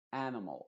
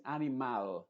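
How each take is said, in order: First: "Animal" en inglés, con la última vocal reducida; schwa final. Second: "animal" con la última A clara y abierta; A bien abierta. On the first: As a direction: di "Animal" casi como "ánamol", breve al final. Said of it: "sino que con una schwa". ("Animal" con schwa en la última sílaba) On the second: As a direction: di "animal" a la española, con A plena final. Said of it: "con una A bien abierta". ("animal" sin reducir la vocal final) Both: Shown as a demonstration.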